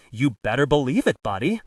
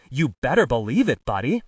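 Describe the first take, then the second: First: Louder mock film tough-guy voice; Bogart impression. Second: Louder film gangster impersonation; Jimmy Cagney impression. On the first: the speaker retelling how he dismissed the priest, Bogart impression. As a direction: attempt a movie-star impersonation, a little loud. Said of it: "in my best Bogart voice". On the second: the speaker showing his colleague the difference, Cagney impression. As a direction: punch it out as a movie-star impression. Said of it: "This is my Jimmy Cagney voice".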